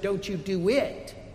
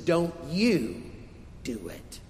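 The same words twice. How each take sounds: First: The stress is on "do". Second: The stress is on "you".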